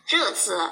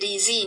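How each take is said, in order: First: The syllables are read with Mandarin pinyin sounds. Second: The syllables are read with plain Indonesian letter sounds. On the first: The speaker calls it right. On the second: The speaker calls it wrong.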